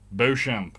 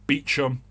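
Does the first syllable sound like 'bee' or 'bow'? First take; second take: bow; bee. First: The first syllable sounds like 'bow'. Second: The first syllable sounds like 'bee'. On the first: "It's pronounced Beauchamp. Beau" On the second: "if it was Beecham, you get rid of the U, you get rid of the P"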